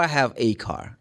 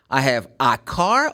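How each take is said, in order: First: "a" said as ay, like the letter A; article as ay. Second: "a" said as an open ah before "car"; article as ah. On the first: Teacher compares two ways for learners, a as ay. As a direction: say "a" as ay in "a car". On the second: Teacher compares two ways for learners, a as ah. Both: Shown as a demonstration. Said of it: "Which one is the correct way".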